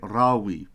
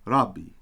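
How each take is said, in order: First: The middle consonant is a soft w sound. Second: The middle consonant is a doubled hard b. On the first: The speaker calls it wrong. "we'd be pronouncing it Rawi because that that vowel" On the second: The speaker calls it right. "We say Rabbi"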